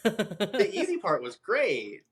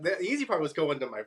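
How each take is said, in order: First: Laughing. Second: Said in the usual way. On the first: Real, not acted. Laughs while repeating the phrase.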